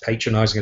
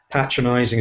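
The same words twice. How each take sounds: First: It is said in an American accent. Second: It is said in a British accent.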